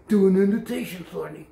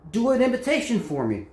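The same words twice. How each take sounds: First: Mockingbird mimicry. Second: Said in the usual way. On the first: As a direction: repeat it back like a mimic bird. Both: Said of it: "I'm a mockingbird".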